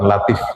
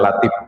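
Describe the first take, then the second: First: The final consonant is an f sound. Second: The final consonant is a p sound. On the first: This is how it is not read by a Sundanese speaker. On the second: This is how a Sundanese speaker would read it. "Sunda itu kan nggak bisa menulis atau membaca huruf F, jadi bacanya"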